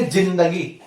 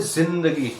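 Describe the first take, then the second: First: जिंदगी said with a plain j sound, as in Hindi; plain Hindi reading. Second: जिंदगी said with a z sound at the start, zindagi; Urdu pronunciation with z. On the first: Teacher showing students the wrong Hindi reading, plain j in जिंदगी. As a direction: say जिंदगी the ordinary Hindi way, j not z. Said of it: "लेकिन वो जिंदगी अपना उच्चारण सही नहीं होगा". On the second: Teacher showing students the correct Urdu sound with nukta, z in जिंदगी. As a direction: open जिंदगी with a buzzing z, not j. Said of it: "तो जा की आवाज आ रही है". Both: Shown as a demonstration.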